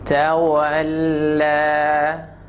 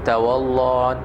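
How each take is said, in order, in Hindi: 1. l हल्का और तीखा बोला जाता है। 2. l भारी और भरपूर बोला जाता है। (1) "I mean it will be sharp" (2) "it will not be tawalla"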